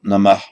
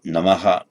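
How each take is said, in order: First: It ends on h with no following vowel. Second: An echo vowel follows the final h. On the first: The speaker calls it wrong. "not Namah, two syllables" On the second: The speaker calls it right. "but Namaha, which is heard distinctly as three syllables"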